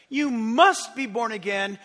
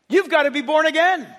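First: "must" drawn out and stressed, slow; slow down and weigh the word "must". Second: Said in the usual way. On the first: Shown as a demonstration. Preacher spelling out the stress for the congregation, slow with "must" leaned on. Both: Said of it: "And the stress is this".

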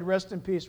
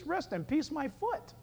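First: Said in the usual way. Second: Quieter, higher-pitched scoff. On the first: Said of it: "Let's say goodbye to the dearly departed". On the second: Acted. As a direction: toss the phrase back in disbelief. Mocks the funeral phrase.

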